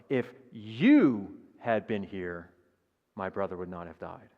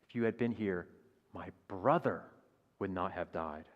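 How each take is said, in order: First: The stress is on "you". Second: The stress is on "brother".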